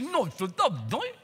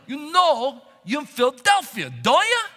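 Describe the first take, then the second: First: It is said fast and slurred together. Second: It is said slowly and clearly.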